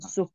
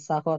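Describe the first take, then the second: First: The first vowel is a rounded 'u'. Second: The first vowel is an open 'a'. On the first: The speaker calls it right. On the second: The speaker calls it wrong. "bukan saho"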